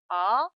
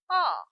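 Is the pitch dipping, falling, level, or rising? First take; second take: rising; falling. First: The pitch rises quickly from middle to high. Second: The pitch falls sharply from high to low. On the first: "미의 음에서 단숨에 곡선을 타면서 솔의 음 높이로 올립니다" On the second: "솔의 음에서 시작하여 도의 음으로 길게 네, 떨어지는 음입니다"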